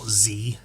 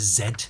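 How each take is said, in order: First: The letter name is said the American way. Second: The letter name is said the British way. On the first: "not Z as they pronounce it in America" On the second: "That's the letter Z"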